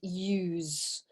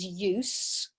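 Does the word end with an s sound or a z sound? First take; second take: z; s. First: The word ends with a buzzing z sound. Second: The word ends with a soft s sound. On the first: It is used as a verb. "the verb is use with a more of a Z sound" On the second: It is used as a noun. "the noun is use"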